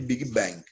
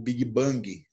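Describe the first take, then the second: First: It is pronounced the English way. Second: It is pronounced the Portuguese way.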